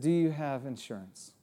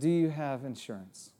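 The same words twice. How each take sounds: First: It sounds hostile and accusing. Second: The same.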